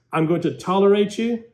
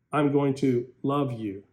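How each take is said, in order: First: A bit higher, grudging and cold. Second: Tender, loving. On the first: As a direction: say it like you barely put up with them. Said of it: "big difference". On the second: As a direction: say it like you truly mean love. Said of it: "Listen to the true virtue". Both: Shown as a demonstration.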